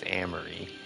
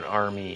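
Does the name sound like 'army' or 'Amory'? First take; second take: Amory; army. First: The name is said as Amory. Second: The name is said like the word army. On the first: The speaker calls it right. "it's Amory" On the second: The speaker calls it wrong. "It's not Army"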